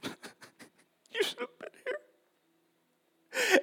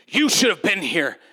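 First: It sounds grieving, like a deep cry. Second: It sounds offended and accusing.

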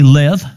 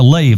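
First: It is said with a short vowel like lev. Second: It is said with a long vowel like lathe. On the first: "Phonetically, it would be lev" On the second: "he actually pronounced it like a lathe"

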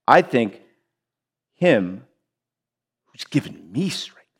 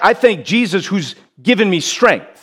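First: The word 'me' is strongly stressed. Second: The word 'me' is not stressed.

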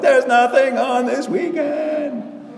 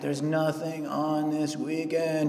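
First: The voice sounds pleased and relieved. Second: The voice sounds let down and disappointed. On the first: Having no plans is welcome. "And then when you get old, you're like" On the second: Having no plans is a letdown. "when you're young, your tone was, oh man"

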